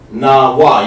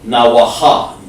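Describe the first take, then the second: First: The word ends cleanly with no h sound. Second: The word ends with an extra h sound. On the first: The speaker calls it right. "You want to say nawa" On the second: The speaker calls it wrong. "you don't want to say nawaha"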